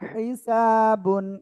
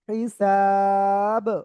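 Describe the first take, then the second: First: The word ends with the full -un ending. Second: The word ends cut short without -un. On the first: The reader continues without stopping. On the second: The reader stops at this word.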